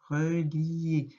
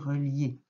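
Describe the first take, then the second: First: Each syllable is pronounced separately and fully. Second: The syllables are run together naturally. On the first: "prends le temps de bien décomposer, on entend tout" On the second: "on dit relier"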